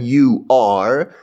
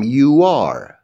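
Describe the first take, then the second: First: The two words are said separately. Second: The two words are run together. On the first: The speaker calls it wrong. "به جای اینکه بگم you are" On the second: The speaker calls it right. "کلمه ها رو به هم میچسبونم"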